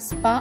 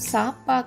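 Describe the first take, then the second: First: The s and p join without a vowel. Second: A vowel separates the s and the p. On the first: The speaker calls it right. "స్పా అవుతుంది" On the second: The speaker calls it wrong. "కాకుండా"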